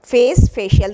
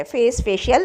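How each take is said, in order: First: फेस called out louder, falling; teacher announcing फेस, facial with force; emphatic word call. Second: Said in the usual way. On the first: Shown as a demonstration. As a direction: punch फेस loud, then glide into facial. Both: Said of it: "देखिए कितना प्यारा word है".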